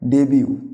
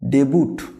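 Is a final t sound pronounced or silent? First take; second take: silent; pronounced. First: The word ends in a vowel, without t. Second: The word ends with a pronounced t sound. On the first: The speaker calls it right. "সঠিক উচ্চারণ যাবে ডেবিউ" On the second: The speaker calls it wrong. "এটা কি বলবো ডেবুট না"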